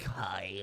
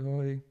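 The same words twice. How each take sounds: First: It is said as a lingering, creepy greeting. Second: It is said as a quick, awkward greeting.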